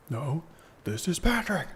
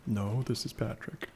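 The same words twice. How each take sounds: First: Higher dopey cartoon starfish voice; goofy cartoon starfish delivery; Patrick voice. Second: Said in the usual way. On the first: Patrick meme, Krusty Krab joke.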